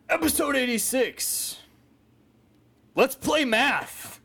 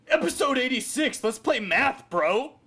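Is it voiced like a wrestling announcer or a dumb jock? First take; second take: wrestling announcer; dumb jock. First: It sounds like a dramatic wrestling announcer. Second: It sounds like a dumb jock talking.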